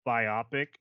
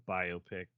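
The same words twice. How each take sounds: First: "biopic" said as bi-OP-ic, stressed in the middle; biopic rhyming with myopic. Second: Said in the usual way. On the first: Shown as a demonstration. Admitting an odd pronunciation to co-hosts, "biopic" as bi-OP-ic. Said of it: "I also say biopic instead of". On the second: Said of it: "instead of biopic".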